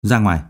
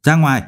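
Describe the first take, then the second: First: Low, coldly controlled order. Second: Mild shout. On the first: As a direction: send them out coldly, voice dropped. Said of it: "đột nhiên cất giọng lạnh lùng". (giọng trầm, lạnh lùng) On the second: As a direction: order them out with a restrained shout. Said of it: "Phương Mộc hét lớn". (hét lớn nhưng tiết chế) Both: A narrator's reading.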